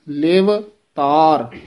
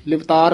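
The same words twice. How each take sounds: First: ਲਿਵ ਤਾਰ as two slow, separate words; drawn-out ਲਿਵ, break, then ਤਾਰ; words kept separate. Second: Livtar as one quick word; no break inside Livtar; words run together. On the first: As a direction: clear pause between ਲਿਵ and ਤਾਰ. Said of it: "ਵੱਖਰਾ ਵੱਖਰਾ ਬੋਲਣਾ ਹੈ". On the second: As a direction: join ਲਿਵ and ਤਾਰ into Livtar. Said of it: "ਇਕੱਠਾ ਨਹੀਂ ਕਹਿਣਾ". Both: Shown as a demonstration.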